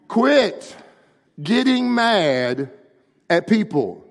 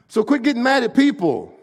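First: It is said more slowly. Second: It is said at a normal speed.

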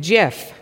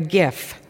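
First: The word begins with a j sound. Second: The word begins with a hard g sound. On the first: "some people pronounce it GIF, which is not to be confused with GIF the peanut butter" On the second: "Not to be mixed up with a gift we get at Christmas time"

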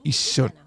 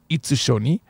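First: A held double s sound replaces the tsu. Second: A separate tsu syllable is pronounced in the middle. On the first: The speaker calls it right. "It's isshoni" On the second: The speaker calls it wrong. "You would never say itsushoni"

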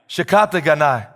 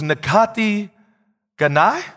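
First: The first word begins with a 'shi' sound. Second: The first word begins with a 'na' sound. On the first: The speaker calls it right. "Is that better? All right, that was better" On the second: The speaker calls it wrong. "I hope I'm saying that right"

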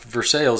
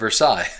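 First: It uses the local Kentucky pronunciation. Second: It uses the usual non-local pronunciation. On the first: This is how the Kentucky town is called. "Kentucky is pronounced Versailles" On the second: This is how the name is usually said elsewhere. "instead of Versailles"

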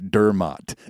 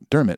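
First: The last syllable does not sound like 'mitt'. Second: The last syllable sounds like 'mitt'. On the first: It copies the podcast's mispronunciation. The speaker calls it wrong. "say Dermot in honor of your podcast" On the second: It is the Irish pronunciation. The speaker calls it right. "like a catcher's mitt"

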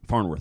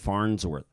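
First: No s sound comes before the second syllable. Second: An s sound links the two syllables. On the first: The speaker calls it right. "It's a little abrupt" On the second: The speaker calls it wrong. "I need something to carry me through flows, to that second syllable"

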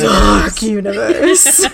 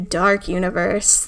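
First: It is said in a dramatic way. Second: It is said plainly, in passing.

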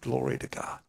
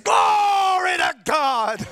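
First: It is said quietly and gently. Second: It is said loudly and defiantly.

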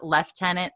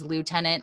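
First: The word is said the British way. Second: The word is said the North American way. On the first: "but the British pronounced Lieutenant" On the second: "the North American version is Lieutenant"

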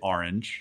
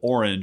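First: The word is said in a Philadelphia accent. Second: The word is said in a general American accent. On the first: "I say orange" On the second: "instead of orange"

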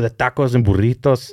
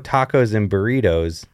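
First: It is said with a heavy, exaggerated Spanish accent. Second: It is said plainly, without a heavy Spanish accent. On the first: The speaker calls it wrong. "if you really go super hard on" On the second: The speaker calls it right. "that's actually fine"

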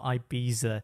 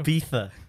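First: The middle consonant is a 'z' sound. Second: The middle consonant is a 'th' sound. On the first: The speaker calls it wrong. "It's not Ibiza or something like that" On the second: The speaker calls it right. "T-H, you pronounce it like that"

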